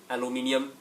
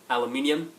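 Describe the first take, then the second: No difference in how they are said.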